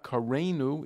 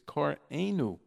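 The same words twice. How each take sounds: First: The syllables run together smoothly with no break. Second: The ayin is sounded with a break between syllables. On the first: The speaker calls it wrong. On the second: The speaker calls it right.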